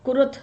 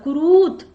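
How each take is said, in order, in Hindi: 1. दूसरे अक्षर में छोटा उ स्वर है। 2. दूसरे अक्षर में लंबा ऊ स्वर है। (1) "रा में छोटा हुआ ऐसे होना चाहिए था" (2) "गोल बना के तो बड़ा हुआ होता है"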